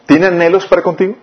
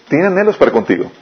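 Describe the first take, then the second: First: Higher-pitched question, rising at the end. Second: Settled statement, falling at the end; affirming. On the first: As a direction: ask "Tiene anhelos para contigo" with a lifted final rise. Asks it, then affirms it. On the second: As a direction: state "Tiene anhelos para contigo" with a closing fall. Affirms the question just asked. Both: Real, not acted.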